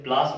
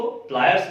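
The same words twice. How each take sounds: First: प्लास in one syllable, plaas; colloquial corruption. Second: प्लायर्स in two syllables, ply-ers; standard pronunciation. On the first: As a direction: flatten it to प्लास, no y or r. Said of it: "अपभ्रंश करके बोलचाल की भाषा में". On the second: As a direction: say प्लायर्स with a y glide and r. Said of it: "हम इसको प्लायर्स बोलते हैं". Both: Shown as a demonstration.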